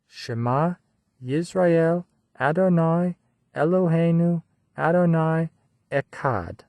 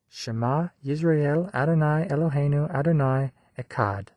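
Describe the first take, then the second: First: The line is recited slowly and deliberately. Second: The line is recited at a normal pace.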